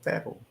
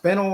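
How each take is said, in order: First: Fennel softly, first vowel more open, like FAN-ul; second option, a soft, tentative FAN-ul for fennel; alternative pronunciation. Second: Fennel as FEN-ul, first syllable stressed; first option, fennel said FEN-ul; trying a pronunciation. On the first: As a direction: try "fennel" quietly as FAN-ul. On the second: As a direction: offer "fennel" with a clear short e, FEN-ul. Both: Shown as a demonstration. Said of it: "Is that pronounced fennel or".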